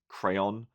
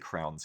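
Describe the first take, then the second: First: The word is said in full, two syllables. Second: The word is shortened to one syllable. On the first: This is how most of the world says it. "I think the rest of the world pronounces this crayon" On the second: This is how Australians say it. "we're kind of lazy and we shorten everything"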